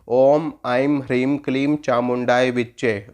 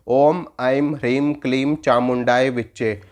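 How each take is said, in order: No difference in how they are said.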